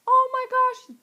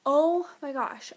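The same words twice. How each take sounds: First: Squealing high and loud, thrilled fan; excited gush. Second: Said in the usual way. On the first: Retold or imitated. Fan recalling her first reaction, high excited squeal. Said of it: "I still am like".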